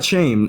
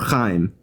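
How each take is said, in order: First: The name begins with a sh sound. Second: The name begins with a throaty ch sound. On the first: The speaker calls it wrong. "not shame" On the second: The speaker calls it right. "if you can pronounce the ch"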